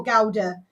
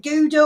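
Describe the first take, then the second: First: "Gouda" with an ow, GOW-duh; GOW-duh pronunciation. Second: "Gouda" with a long oo, GOO-duh; GOO-duh pronunciation. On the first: Host polling listeners on pronunciation, "Gouda" said GOW-duh. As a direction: make the first part of "Gouda" rhyme with cow. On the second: Host polling listeners on pronunciation, "Gouda" said GOO-duh. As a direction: make "Gouda" begin like goo. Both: Shown as a demonstration. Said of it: "Do you pronounce it".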